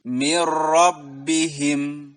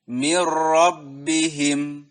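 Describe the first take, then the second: The two takes are said the same way.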